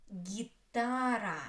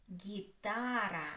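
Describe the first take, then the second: No difference in how they are said.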